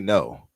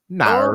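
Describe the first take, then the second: First: It is said with a plain rounded vowel. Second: It is said with a broad open vowel. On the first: "They don't say no" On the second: "they'll say it like nar"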